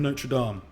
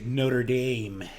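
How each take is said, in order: First: It is said with a non-American pronunciation. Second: It is said with an American pronunciation.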